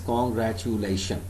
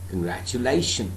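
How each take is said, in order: First: Every syllable is stressed equally. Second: Only the syllable 'la' carries the stress. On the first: The speaker calls it wrong. "I am stressing each and every syllable. So this is absolutely wrong" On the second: The speaker calls it right. "Lay is a syllable where, where I have to give more emphasis"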